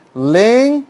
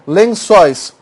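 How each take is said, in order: First: "Lençóis" split as len, çóis, first part high; syllable by syllable. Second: Said in the usual way. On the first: Shown as a demonstration. Teacher dividing an example word, syllable by syllable. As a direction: draw out "len", pause, then "çóis". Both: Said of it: "Claro que tem acento".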